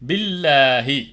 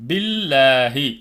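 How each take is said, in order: Both takes have the same delivery.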